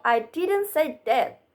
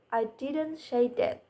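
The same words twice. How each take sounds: First: "I didn't say that" higher, with didn't picked out; emphatic stress. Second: "I didn't say that" softer, with weight moved to say; emphatic stress, lower take. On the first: Presenter showing contrast, "I didn't say that" with stress on didn't. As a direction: punch didn't in "I didn't say that". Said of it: "empathic stress, is used in sentences to show contrast". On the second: Presenter showing contrast, "I didn't say that" with stress on say. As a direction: lean gently on say in "I didn't say that". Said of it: "is used in sentences to show contrast".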